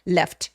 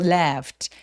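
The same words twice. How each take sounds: First: The word is said quickly with a short vowel. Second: The word is said slowly with a long vowel. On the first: The speaker calls it wrong. "left 빠르게 발음하면 떠난 것처럼 느껴져요. left 아니고" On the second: The speaker calls it right. "left 길게 발음합니다"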